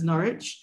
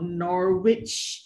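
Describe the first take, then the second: First: No W sound is heard in the middle. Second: A W sound is heard in the middle. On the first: The speaker calls it right. "there's no W in that pronunciation" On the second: The speaker calls it wrong. "is not"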